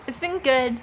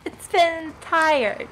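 First: Said in the usual way. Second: Slow, sleepy drawl on been, then trailing off; tired streamer dragging out the words; drawn-out tired. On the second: Real, not acted. Streamer to chat, admitting exhaustion, slow and worn out. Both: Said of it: "but I've been very tired".

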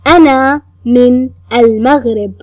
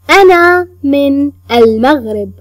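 No difference in how they are said.

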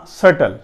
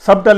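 First: "سٹل" with no b sound; correct pronunciation. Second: "سبٹل" with an audible b; wrong pronunciation. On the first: Teacher correcting the misreading for learners, correct pronunciation. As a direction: drop the b entirely in "سٹل". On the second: Teacher warning learners off the misreading, wrong pronunciation. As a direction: sound the b in "سبٹل" before t. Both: Shown as a demonstration. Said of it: "سبٹل نہیں پڑھنا".

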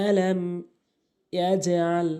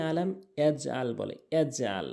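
First: "ইয়াজআল" with echoing jim and throat ain; bouncing jim, ain. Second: "ইয়াজআল" with unbounced jim and plain hamza; no bounce. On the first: Teacher reciting the model, "ইয়াজআল" with qalqala on jim. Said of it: "এজে হবে". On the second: Teacher showing a common mistake, "ইয়াজআল" without qalqala on jim. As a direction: say "ইয়াজআল" running a closed j into "al". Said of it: "এখানে ইয়াজআল বলাটা ভুল". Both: Shown as a demonstration.

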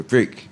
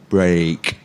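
First: BRICK with a short, tight "ih"; teacher's demonstration of short-voweled BRICK. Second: Teacher's drawn-out demonstration of BREAK; long A in break. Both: Shown as a demonstration. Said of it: "So brick is like that".

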